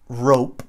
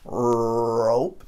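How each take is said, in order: First: Said in the usual way. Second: "rope" with a long, exaggerated opening R; drawn-out R at the start of "rope"; super thick R. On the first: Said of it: "Vai no início da palavra". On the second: Shown as a demonstration. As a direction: hold the English R before finishing "rope". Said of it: "Super grosso".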